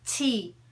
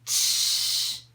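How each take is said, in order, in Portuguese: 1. O T é seco, sem chiado. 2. O T tem um chiado, tipo 'tch', na saída. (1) "Bem seco. Não tem esse chiado" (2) "Não faz com tsh, com esse som que a gente faz em português"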